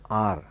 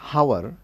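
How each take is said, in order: First: The word starts directly with a vowel sound. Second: The word starts with an audible h sound. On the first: The speaker calls it right. "we pronounce it as R" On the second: The speaker calls it wrong. "We don't pronounce it as hour"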